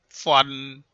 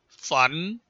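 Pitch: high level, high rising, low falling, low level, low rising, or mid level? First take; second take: mid level; high rising. First: The pitch stays mid and level. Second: The pitch rises from mid to high.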